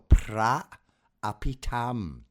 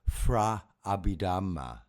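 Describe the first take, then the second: First: The first word begins with a P sound. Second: The first word begins with an F sound. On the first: The speaker calls it right. "P R A for pra, not P H R A for fra" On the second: The speaker calls it wrong. "We don't pronounce it like that"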